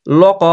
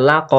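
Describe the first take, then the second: First: লক said "lo-qo", first vowel rounded; mispronounced rounded vowel. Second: লাক said "la-qo", first vowel open; correct open vowel. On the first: Teacher warning learners off the mistake, rounded "lo" in লক. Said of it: "লক হবে না". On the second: Teacher giving learners the right form, open "la" in লাক. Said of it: "লাক হবে". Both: Shown as a demonstration.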